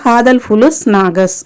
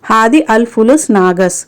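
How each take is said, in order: First: The first two words run together quickly. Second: The first two words are said separately.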